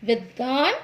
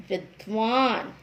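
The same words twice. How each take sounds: First: विद्वान as vid-daan, no second v; mispronounced विद्वान. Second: विद्वान as vid-vaan; correct विद्वान. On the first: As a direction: drop the v after d in विद्वान. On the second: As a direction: sound the v after d in विद्वान. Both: Shown as a demonstration. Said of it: "जिनका हम गलत उच्चारण".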